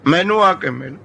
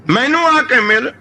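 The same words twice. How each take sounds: First: Said in the usual way. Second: ਮੈਨੂੰ ਆ ਕੇ ਮਿਲ raised higher, ਆ lifted and stretched; pleading call to God. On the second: Retold or imitated. Fakir begging God to visit him, raised pleading call. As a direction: plead ਆ ਕੇ ਮਿਲ upward like a lone prayer. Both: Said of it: "ਬਸ ਇਹੀ ਕਹੀ ਗਿਆ".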